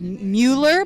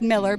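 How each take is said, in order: First: The first syllable sounds like 'moo'. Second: The first syllable sounds like 'mill'. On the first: The speaker calls it wrong. "A lot of people spell it uh, or pronounce it as" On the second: The speaker calls it right. "but it's actually pronounced Miller"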